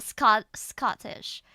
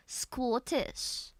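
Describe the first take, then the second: First: Said in the usual way. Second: "Scottish" as Skawtish, long rounded aw. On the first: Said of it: "Not Scot-, Scottish". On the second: Shown as a demonstration. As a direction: round and stretch the first vowel of "Scottish". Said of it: "this turns Scottish into Scottish".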